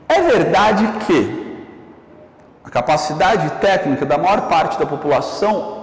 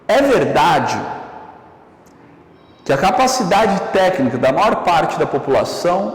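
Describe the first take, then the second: First: It runs on without a pause before 'que'. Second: There is a pause just before 'que'. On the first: "numa circunstância real de fala, eu, basicamente, eu efetuo uma pausa" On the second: "nessa segunda enunciação, eu basicamente eu desloquei essa pausa para antes do que"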